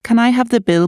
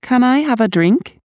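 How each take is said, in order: First: Ends on a falling tune after "bill". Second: "drink" rises at the end like a yes-no question; rising question tune. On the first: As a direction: let the voice drop at the end of "Can I have the bill". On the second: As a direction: lift the voice on "drink?". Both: Shown as a demonstration. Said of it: "reading practice questions aloud".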